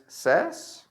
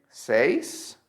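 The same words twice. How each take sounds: First: "says" as sez, short e; correct short vowel. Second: "says" as sayz, rhyming with days; incorrect long vowel. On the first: Teacher gives the correct form, "says" as sez. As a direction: say "says" with the e of bed. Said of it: "The correct is". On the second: Teacher shows the mistake, "says" as sayz. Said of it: "it's not correct to say". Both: Shown as a demonstration.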